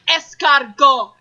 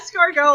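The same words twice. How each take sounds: First: It is said with an exaggerated French accent. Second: It is said plainly in an ordinary voice. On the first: The diner is showing off while ordering. The speaker calls it wrong. "They'll like throw on an accent, but for only that word" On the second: The diner simply orders the dish. The speaker calls it right. "like a normal person. Say it in your normal voice"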